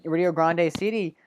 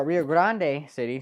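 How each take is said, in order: First: Said in the usual way. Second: Spanish accent. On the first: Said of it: "trying to get my Spanish accent there". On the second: Shown as a demonstration. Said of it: "I'm trying to get my Spanish accent there".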